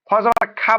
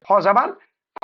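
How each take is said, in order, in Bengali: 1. শেষের স্বরধ্বনিটি একটি স্পষ্ট, খোলা aa। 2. শেষের স্বরধ্বনিটি গাঢ় ও গোলাকার, aa নয়। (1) "খ জাবার খা বলবেন না কেউ" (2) "আ হবে না"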